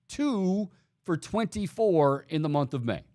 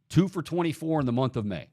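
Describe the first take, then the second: First: TWO held long and high, then a pause; emphatic repeat. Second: Said in the usual way. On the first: Real, not acted. Host driving a bad batting stat home to listeners, emphatic. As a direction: lean hard on "Two", stretching it out.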